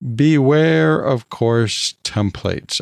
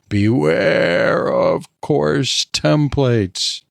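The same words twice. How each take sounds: First: It is said in a normal voice. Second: It is said in a spooky voice.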